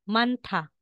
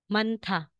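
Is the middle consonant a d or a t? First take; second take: t; t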